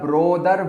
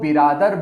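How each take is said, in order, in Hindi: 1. पहला स्वर go के o जैसा सुनाई देता है। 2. एक अतिरिक्त स्वर b और r को अलग करता है। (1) "या ब्रोदर बोलते हैं, जो कि गलत है" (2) "कुछ लोग इस शब्द को बिरादर बोलते हैं ... जो कि गलत है"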